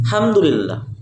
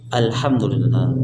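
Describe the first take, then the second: First: The opening 'al' is dropped entirely. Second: The opening 'al' is clearly pronounced. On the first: The speaker calls it wrong. "Jangan hamdulillah" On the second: The speaker calls it right. "Tapi alhamdulillah"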